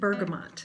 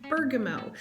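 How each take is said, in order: First: The final T sound is clearly pronounced. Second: The final T sound is left silent. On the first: The speaker calls it right. "all of the places say that you pronounce it bergamot" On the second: The speaker calls it wrong. "I've been keeping this T silent"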